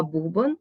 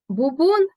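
First: Бубон as БУбон; stress on first syllable. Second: Бубон as буБОН, high and loud on БОН; stress on second syllable. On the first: Teacher naming the percussion instrument, бубон stressed on БУ. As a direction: lean on БУ in бубон. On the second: Teacher explaining the pompon word, бубон stressed on БОН. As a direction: punch the end of бубон. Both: Shown as a demonstration. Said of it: "Наголос у словах залежить".

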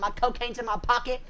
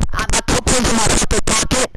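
First: Said in the usual way. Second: Much louder, fed-up shout; yelling at a teammate who won't listen; exasperated yell. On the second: Real, not acted. Yells at teammate he said it.

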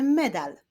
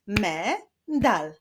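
First: Said in the usual way. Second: "Me-dal" split as me, pause, dal; syllable by syllable. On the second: Shown as a demonstration. Teacher clapping syllables with pupils, "Me-dal" said syllable by syllable. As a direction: sound out "Me-dal" in two beats. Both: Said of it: "wyklaszczmy sylaby w wyrazie medal".

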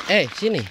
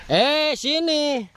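First: Said in the usual way. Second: Slow, drawn-out, higher coaxing call. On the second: Real, not acted. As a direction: stretch it out to lure the dog. Calling the dog over. (memanggil dengan lembut dan lambat)

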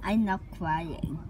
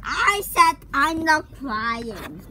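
First: Said in the usual way. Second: Louder, insisting he is not crying; insistent. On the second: Pretend. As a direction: push back hard, raising the voice. Insisting after being told again.

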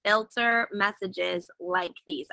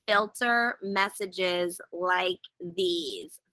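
First: Said in the usual way. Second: Slow reading. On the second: Shown as a demonstration. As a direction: slowly read out the menu item. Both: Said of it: "let me do this slowly".

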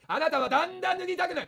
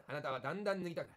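First: あなたはだんだん脱ぎたくなる shouted louder, higher, だん stressed; shouted hypnosis. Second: Softer mock hypnotist, あなたはだんだん脱ぎたくなる low and hushed; hypnotist murmur. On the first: Acted. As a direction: hammer the suggestion at full volume. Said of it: "声枯れちゃうぞ。". (声を張り上げる催眠術) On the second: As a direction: lull them under like a stage hypnotist. (小声の催眠術師風)

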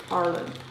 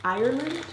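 First: "Ireland" said AR-lund, first syllable like "are"; "Ireland" with an "ar" start and no "eye"; Ireland said AR-land. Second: "Ireland" said EYE-er-lund, rising like a question; "Ireland" starting with "eye", tentative rise; Ireland said EYE-er-land. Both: Shown as a demonstration. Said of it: "Is it Ireland or Ireland?".

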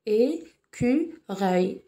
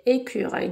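First: "Écureuil" broken slowly into É, cu, reuil; split into syllables. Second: Said in the usual way. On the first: Shown as a demonstration. Teacher shows the lone vowel is a sound, "Écureuil" syllable by syllable. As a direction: draw "Écureuil" out with gaps between its three syllables. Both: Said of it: "nous avons trois syllabes".

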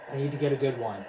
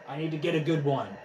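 The two takes are said the same way.

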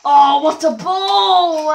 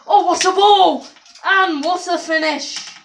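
First: Slow, loud mock commentator cry of "ball"; mock commentator call. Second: Loud, high cheer of "what a ball", "what a finish"; excited commentator call. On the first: Gamer mocks his own shot, loud slow commentator call. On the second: Acted. Gamer finally scores, loud thrilled commentator call. Genuine commentator-style celebration.

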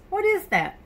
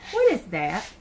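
First: Surprised question. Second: Said in the usual way. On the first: Shown as a demonstration. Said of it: "second take much higher". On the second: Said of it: "asks twice, second higher".

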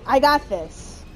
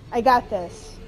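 No difference in how they are said.

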